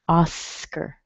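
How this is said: It is said with an English pronunciation.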